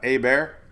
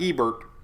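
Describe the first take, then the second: First: The name starts with a silent H. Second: The name starts with a sounded H. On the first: The speaker calls it right. "I think the H is silent" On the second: The speaker calls it wrong. "Not Hebert. Sounds like I'm talking about Sherbert ice cream"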